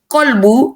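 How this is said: The word begins with a q sound. This is how it is said in Yemen, Syria, Morocco and Saudi Arabia.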